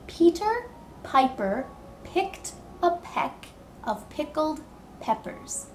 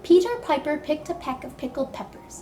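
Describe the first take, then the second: First: The sentence is spoken slowly and carefully. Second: The sentence is spoken quickly. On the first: "Can you try saying it with me slowly?"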